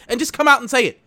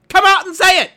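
First: High, loud demand; angry demand. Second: Very high, very loud yelled demand; furious yell. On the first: Demanding managers admit it, loud and high. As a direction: push them to admit it. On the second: Demanding managers admit it, yelling very loud. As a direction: scream the demand at full force. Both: Retold or imitated. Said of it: "And I'm just like".

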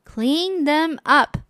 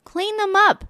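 First: Slow, firm mother spelling it out; firm slow order. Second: Mother's order. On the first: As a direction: mom putting her foot down, slowly. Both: Acted. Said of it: "said the mother".

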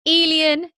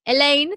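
First: "Elian" called out as EE-lee-un; higher, louder "Elian", rhyming with "alien"; imitated pronunciation. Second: Said in the usual way. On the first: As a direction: draw on her version, "Elian" ending "-ian". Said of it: "but when you said it". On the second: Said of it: "that it spelled Elaine".

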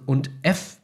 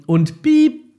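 First: Said in the usual way. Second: Piep squeaked high and loud; a sharp high spoken bleep. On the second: Shown as a demonstration. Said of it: "mach immer Piep". (hohes lautes Piep statt Schimpfwort)

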